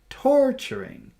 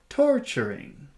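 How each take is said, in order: The two takes are said the same way.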